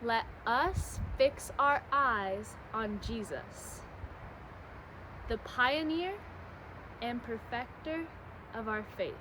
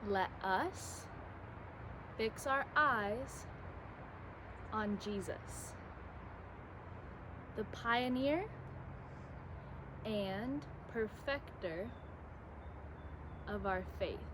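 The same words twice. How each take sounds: First: It is said at a normal speed. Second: It is said a little more slowly.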